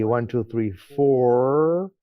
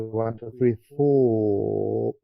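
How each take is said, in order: First: It is said in an American accent. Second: It is said in a British accent. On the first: "In American they say" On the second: "in British they say"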